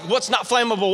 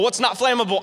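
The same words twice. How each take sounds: First: Quick worried question, voice barely raised; panicked plain question. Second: Mock sung panic. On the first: Retold or imitated. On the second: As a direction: sing the question as a little panicked tune. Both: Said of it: "I'm freaking out".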